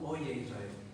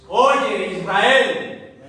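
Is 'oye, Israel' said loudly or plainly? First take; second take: plainly; loudly. First: It is said flatly at normal volume. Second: It is called out loudly with strong emphasis. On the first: It is just a casual remark. The speaker calls it wrong. "No es un oye, Israel" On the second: It is an urgent call to listen. The speaker calls it right. "no había micrófonos, no habían altavoces"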